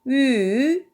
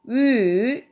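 The two takes are said the same way.

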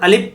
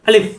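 First: The final sound is made with both lips together. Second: The final sound uses upper teeth on the lower lip. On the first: The speaker calls it wrong. "যদি আলিফ দুই ঠোঁট মিলে যায় তখন কিন্তু আলিফ, তখন উচ্চারণ ভুল হয়ে যাবে" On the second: The speaker calls it right. "উপরের দুই দাঁতের আগা নিচের ঠোঁটের পেটে লাগবে"

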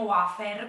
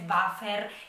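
First: The word begins with a W sound. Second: The word begins with a V sound. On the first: This is the habitual dialect way of saying it. "quindi con la U" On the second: This is the standard way of saying it. "però so che si dice wafer"

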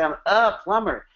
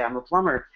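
First: The word "a" is drawn out and stressed. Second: The word "a" is unstressed and quick.

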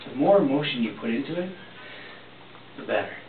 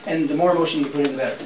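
First: It is said with audible breath and emotion. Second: It is said flatly, without feeling.

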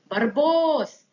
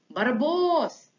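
Both takes have the same delivery.

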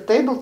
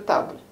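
First: The word is said with English pronunciation. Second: The word is said with French pronunciation. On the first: The written word is read as English. "который не знает английского или французского" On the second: The written word is read as French. "который не знает английского или французского"

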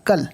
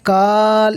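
First: The vowel is short and quick. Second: The vowel is drawn out long. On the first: The speaker calls it right. "এখানে বিনা টেনে পড়তে হবে" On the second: The speaker calls it wrong. "এখানে কাল এমন টান হবে না"

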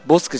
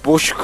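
First: The middle consonant is a plain s sound. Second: The middle consonant is an sh sound. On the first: The speaker calls it wrong. "ボスクじゃなくて" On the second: The speaker calls it right. "ボシュクって言いましょう"

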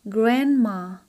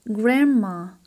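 Both takes have the same delivery.

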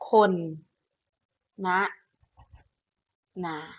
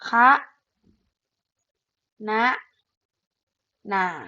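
First: The first syllable is said as khon. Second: The first syllable is said as kha. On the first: "และแบบที่3 อ่านได้ว่า" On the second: "แบบที่สองอ่านได้ว่า"

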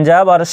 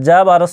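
The two takes are said the same way.

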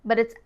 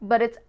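No difference in how they are said.

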